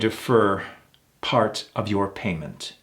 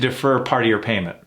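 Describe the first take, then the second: First: The vowel in 'your' is fully pronounced. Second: The vowel in 'your' is dropped before the R. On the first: The speaker sounds formal and authoritative. "got a little more authority when I pronounce that your" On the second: The speaker is being casual. "If I want to sound more casual"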